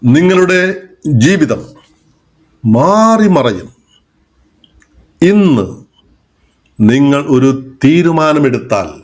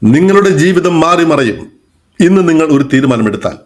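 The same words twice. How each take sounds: First: The sentence has pauses at many places. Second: The sentence runs on with very few pauses. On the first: "എത്രയോ സ്ഥലങ്ങളിൽ ഞാൻ ഒരു pose കൊടുത്തപ്പോൾ അതിന്റെ ഒരു ശൈലി മാറിയത് കണ്ടോ" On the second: "ഞാനിവിടെ പോസ് വളരെ കുറച്ചേ കൊടുത്തുള്ളൂ"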